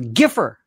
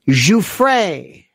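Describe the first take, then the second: First: The name is pronounced like 'Giffer'. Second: The name is not pronounced like 'Giffer'. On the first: The speaker calls it wrong. "One moron called her Giffer" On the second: The speaker calls it right. "listen to me, especially you"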